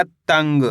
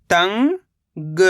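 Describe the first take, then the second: First: Said in the usual way. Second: तंग as long rising "tang", pause, "ga"; split syllables. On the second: Shown as a demonstration. Teacher breaking down तंग for learners, split syllables. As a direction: stretch तंग into two separate syllables. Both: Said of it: "तो मिलके बन जाएगा".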